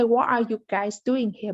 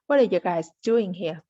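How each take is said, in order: First: Each word is said fully and separately. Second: The words are shortened and run together. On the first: The speaker calls it wrong. "We don't say" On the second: The speaker calls it right. "But we say"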